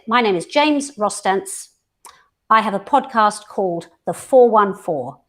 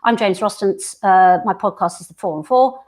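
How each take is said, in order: First: It is said slowly with pauses around the names. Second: It is rushed through quickly without pauses.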